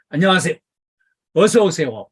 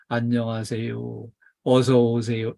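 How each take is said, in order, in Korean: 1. 크고 따뜻하고 밝은 목소리로 해요. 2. 약하고 점점 작아지는, 의욕 없는 목소리로 해요. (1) "웃는 얼굴로 큰 목소리로" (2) "점점 기어 들어가는 소리로"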